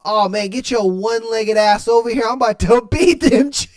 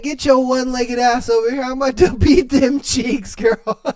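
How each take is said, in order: First: Lightly voiced eager boyfriend, a bit higher and laughing; a hint of a cocky boyfriend breaking into laughs; mock boyfriend line, half laughing; boyfriend quote. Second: Put-on higher playful boyfriend voice with a laugh in it; hammed-up lover calling her over, laughing; mock boyfriend line, laughing through it; boyfriend quote. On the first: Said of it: "and then he was like". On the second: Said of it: "He said".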